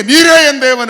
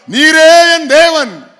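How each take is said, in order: First: Said in the usual way. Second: Slow, loud, drawn-out declaration; stretched-out preacher's claim; slow proclaiming. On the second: Acted. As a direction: proclaim each word slowly.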